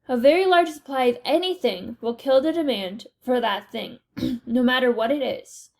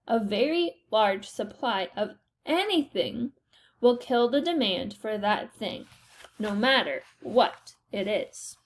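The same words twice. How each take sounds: First: It is said at a normal speed. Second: It is said much more slowly.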